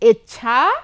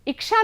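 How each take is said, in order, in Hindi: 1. बीच का व्यंजन 'chchh' जैसा सुनाई देता है। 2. बीच का व्यंजन 'ksh' जैसा सुनाई देता है। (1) "क्या होता है? इच्छा" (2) "इच्छा नहीं होता"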